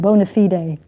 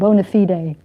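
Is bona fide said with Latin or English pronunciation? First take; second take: Latin; Latin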